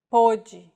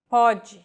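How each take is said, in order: First: Pode said with a closed O, like podʒi. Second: Pode said with an open O, like pɔdʒi. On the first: Teacher showing the homograph, pode with a closed O. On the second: Teacher showing the homograph, Pode with an open O. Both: Shown as a demonstration. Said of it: "this mark may or may not refer to the vowel".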